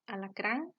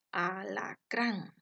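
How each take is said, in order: First: Said in the usual way. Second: "alacrán" drawn out slowly, weight on final "crán"; stress on last syllable. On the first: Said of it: "Veamos algunos ejemplos". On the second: Shown as a demonstration. Teacher showing the stressed syllable, "alacrán" slowly split up. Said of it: "La ubicación de la sílaba tónica".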